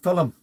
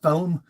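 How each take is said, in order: First: The word is said the Irish way. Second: The word is said the English way. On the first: "We call it film" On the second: "they call it film"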